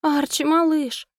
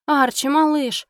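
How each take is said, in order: First: Slow, high pitiful moan; plaintive moan. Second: Slow, high worried cry; alarmed call. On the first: Wife moaning over her unmoving squirrel, slow pitiful cry. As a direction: whimper his name in despair. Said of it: "жалобно простонала я". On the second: Wife calling her stunned squirrel, slow high alarmed cry. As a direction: call out to the limp little pet. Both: Acted.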